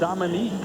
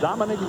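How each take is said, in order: First: The name ends with a long 'eek' sound. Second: The name ends with a short 'ick' sound. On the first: This is how the name is actually said. The speaker calls it right. "when you pronounce it" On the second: This is how the written name looks. The speaker calls it wrong. "when you look at it spelled"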